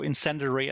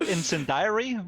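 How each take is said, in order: First: The ending sounds like neither diary nor dairy. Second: The ending sounds like the word diary. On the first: The speaker calls it right. "I think, is the way you pronounce this" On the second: The speaker calls it wrong. "I don't think it's called incendiary with the journal"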